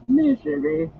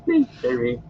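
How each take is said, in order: First: Higher, louder rising wail on misery; Gollum wail rising. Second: High moaning misery; Gollum moan. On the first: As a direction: wail misery, pitch climbing at the end. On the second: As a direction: moan it, pitiful. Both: Acted. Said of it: "repeated misery".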